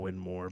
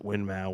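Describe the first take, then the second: First: The last syllable sounds like 'more'. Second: The last syllable rhymes with 'now'. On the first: This follows the founder's name. "it's technically Winmore" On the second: This is the common popular pronunciation. "a lot of people still pronounce it Winmau"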